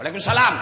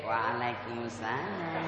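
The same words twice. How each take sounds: First: Brisk, louder, no-nonsense greeting; a girl briskly brushing off a teacher's call; curt reply. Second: Slow, soft, lilting phone reply; a girl cooing her greeting into the phone; mock swooning girl. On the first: Acted. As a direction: answer fast and get it over with. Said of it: "kalau kau ditelepon sama temanmu". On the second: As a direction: melt into the answer like a lovestruck girl. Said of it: "jangan kau mendayu-dayu".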